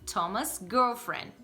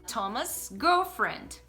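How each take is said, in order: No difference in how they are said.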